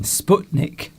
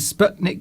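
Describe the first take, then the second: First: The first vowel sounds like the one in butcher. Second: The first vowel is not like butcher's vowel. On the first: The speaker calls it right. "As in butcher" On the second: The speaker calls it wrong. "I'm not pronouncing Sputnik correctly"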